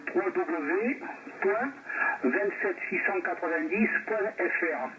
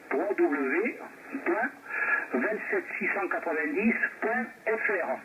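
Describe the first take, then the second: No difference in how they are said.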